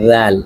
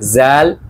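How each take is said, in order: First: The word starts with a tongue-between-teeth th sound. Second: The word starts with a buzzing z sound. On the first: The speaker calls it right. "আমাদের বলতে হবে হচ্ছে রাল" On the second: The speaker calls it wrong. "আমরা যদি বলি জাল তাহলে কিন্তু হবে না"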